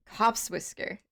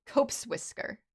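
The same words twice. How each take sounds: First: "Copse" rhymes with hops, short o; "Copse whisker" with a short o, as in hops; right pronunciation. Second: "Cope's" said like the word copes, long o; "Cope's whisker" with a long o, as in copes; wrong pronunciation. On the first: Correcting the cat name to rhyme with hops, "Copse" short o. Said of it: "It is like hops". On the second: Reading the cat name aloud the wrong way, "Cope's" with a long o. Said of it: "I've been saying it wrong this whole time". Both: Shown as a demonstration.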